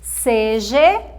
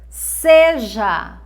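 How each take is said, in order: First: The word ends with an E vowel. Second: The word ends with an A vowel. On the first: The speaker calls it wrong. "Com a vogal E é errado" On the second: The speaker calls it right. "the correct way to say is seja. A"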